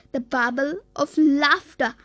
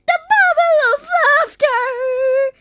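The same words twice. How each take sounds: First: Said in the usual way. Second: Excited cry. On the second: A narrator's reading. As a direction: call out the discovery in a high character voice. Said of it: "cried Zippy".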